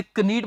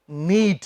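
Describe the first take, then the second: First: "कनीड" with the k sounded; wrong pronunciation. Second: "नीड" with silent k, falling lower; correct pronunciation. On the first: Teacher warning against the error, mispronounced. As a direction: say "कनीड" as kuh-need, voicing the silent k. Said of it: "इसे कनीड मत बोल देना". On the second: Teacher answering what the word is, carefully pronounced. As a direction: model "नीड" starting straight on n. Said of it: "के नहीं बोलते". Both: Shown as a demonstration.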